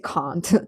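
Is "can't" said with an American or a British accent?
British. It is said with a British accent. "I have to say can't. / I pronounce them as British English"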